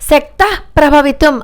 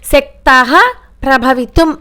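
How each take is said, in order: First: The visarga merges into the next syllable. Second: The visarga is sounded clearly on its own. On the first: The speaker calls it right. "ఆ రెండు కలిపి చదవాలి" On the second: The speaker calls it wrong. "శక్త ప్రభవితం అని చదవకూడదు"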